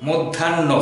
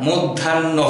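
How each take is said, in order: No difference in how they are said.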